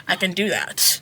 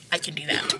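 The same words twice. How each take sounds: First: Said in the usual way. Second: Soft, breathy whisper of resolve; a self-pep whisper before saying it aloud; whispered to herself. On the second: Retold or imitated. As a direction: whisper it like a private promise. [name] psyching herself up.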